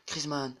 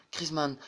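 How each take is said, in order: Both takes have the same delivery.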